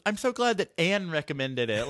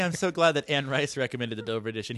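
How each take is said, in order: First: "Anne" leaned on as a familiar first name; mock-quote it, dropping "Anne" like a close friend; casual first-name drop. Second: Said in the usual way. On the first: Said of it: "He says". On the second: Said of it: "he didn't even say".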